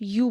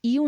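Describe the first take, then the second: First: यू said as a single clean yoo with no ee in front; just यू, one short yoo sound; right take, यू as "yu"; plain yoo. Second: यू said as two sounds, ee then yoo; wrong take, यू as "iu". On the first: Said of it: "सिर्फ यू बोलना है". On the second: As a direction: sound यू as i-u, the ee glide in front. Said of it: "यू नहीं बोलना है". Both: Shown as a demonstration.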